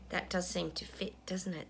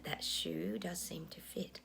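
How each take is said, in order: First: Said in the usual way. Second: "That shoe does seem to fit" breathed as a slow, voiceless whisper; slow conspiratorial whisper. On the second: Real, not acted. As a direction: hush it down like a knowing aside. Repeats the musing as a whisper.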